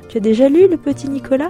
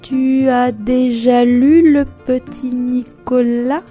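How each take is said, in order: First: The words flow at a normal speaking pace. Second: Each word is separated and spoken very slowly.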